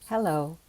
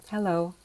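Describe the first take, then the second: The two takes are said the same way.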